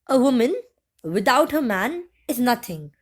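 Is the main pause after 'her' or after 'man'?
after man. The phrase 'without her man' is set off by pauses. A woman is worthless without her partner. "with the first sentence meant that um, a woman without her man, without the man she is living with, is nothing"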